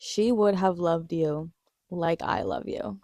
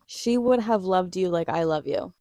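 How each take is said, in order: First: Slow, tender, lightly voiced line; tender quote. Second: Said in the usual way. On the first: Fan quoting the show's love line, slow and tender. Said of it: "the way he says it, impeccable line delivery". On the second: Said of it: "the way he says it".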